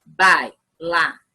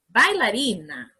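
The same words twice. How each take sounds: First: "Bailarina" in four beats, bai, la, ri, na, paused between; syllable by syllable. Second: Said in the usual way. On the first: Shown as a demonstration. Teacher correcting homework with the class, "Bailarina" said syllable by syllable. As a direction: split "Bailarina" into clearly separated syllables. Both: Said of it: "Vamos separar bailarina em sílabas".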